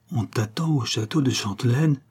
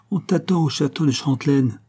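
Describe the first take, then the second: First: "Chantelenne" lifted into a question; puzzled repetition. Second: Higher-pitched taunting call, reported; mildly acted parting shout; cried-out threat. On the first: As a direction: echo "On t'attend au château de Chantelenne" as a question, rising at the end. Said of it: "répéta le comte". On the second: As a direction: call out the menace in a raised pitch. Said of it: "s'est-il écrié en disparaissant". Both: A narrator's reading.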